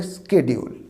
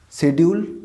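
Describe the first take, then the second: First: "শিডিউল" as ske-di-ul, hard k after the s; American "শিডিউল", sk opening, falling end; American pronunciation. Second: British "শিডিউল", e in the first syllable, rising end; British pronunciation. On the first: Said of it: "আর American হলে". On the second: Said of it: "তাহলে British হলে কী হবে?". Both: Shown as a demonstration.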